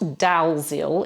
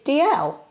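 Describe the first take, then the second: First: The name is said following its spelling. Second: The name is said as Dee-ell. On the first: The speaker calls it wrong. "it's not Dalziel, even though that's how it's spelled" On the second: The speaker calls it right. "It's D L"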